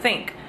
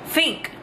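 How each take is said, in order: First: The word starts with a th sound. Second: The word starts with an f sound. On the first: This is the American way. "instead of think" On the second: This is the British way. "the T H's are F's"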